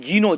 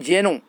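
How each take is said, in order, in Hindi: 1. पहला स्वर लंबा 'ee' है। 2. पहला स्वर छोटा 'e' है। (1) "कई लोग इसको जीनो कहते हैं" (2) "इसको कहते हैं यहाँ पर जेनोफोबिया"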